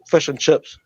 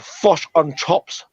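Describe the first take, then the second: First: The phrase is said in a natural accent. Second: The phrase is said in an exaggerated mocking accent. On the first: This is how the speaker's countrymen really talk. The speaker calls it right. "but we just say" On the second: Others mock how the speaker's countrymen talk. The speaker calls it wrong. "they try to say that we say"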